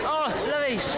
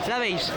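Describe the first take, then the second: First: "¡Oh, la veis!" with a higher, excited "oh"; thrilled to spot her at last. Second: Said in the usual way. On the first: Real, not acted. To viewers on seeing the author, excited.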